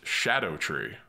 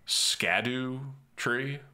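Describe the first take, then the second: First: It starts with a soft 'sh' sound. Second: It starts with a hard 'sk' sound. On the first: The speaker calls it right. "it's actually based on Old English, and it's pronounced shadow tree" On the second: The speaker calls it wrong. "how am I supposed to pronounce this?"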